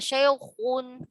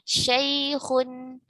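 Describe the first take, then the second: First: The kh sound is strongly thickened. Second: The kh sound is only slightly thickened. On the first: The speaker calls it wrong. "tidak terlalu tepat, tidak syaikhun gitu ya" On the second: The speaker calls it right. "tafkhimnya nisbi saja"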